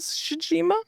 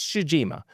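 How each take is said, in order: First: The name is said hesitantly, like a question. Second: The name is said firmly, like a statement. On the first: The speaker is not sure of the pronunciation. "I think that's how they say it" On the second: The speaker wants listeners to believe the pronunciation. "Say it with confidence and people believe you"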